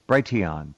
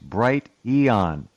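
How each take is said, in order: First: It is said as one blended word. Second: It is said as two parts, Bright and Eon. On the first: The speaker calls it wrong. "He says Brighteon" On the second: The speaker calls it right. "It's Bright Eon. If they had capitalized the E, they'd have had it"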